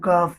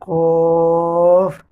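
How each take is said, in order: First: The first consonant is light and thin. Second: The first consonant is heavy and deep. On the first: The speaker calls it wrong. "बहुत से लोग कॉफ को काफ पढ़ते हैं, गलत है" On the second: The speaker calls it right. "कॉफ होता है वो उनको मोटा पढ़ा जाता है"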